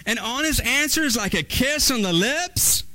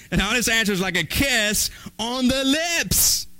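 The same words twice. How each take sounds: First: High, questioning rise in disbelief; incredulous echo. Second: Said in the usual way. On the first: Acted. Baffled listener repeating the proverb back, incredulous echo.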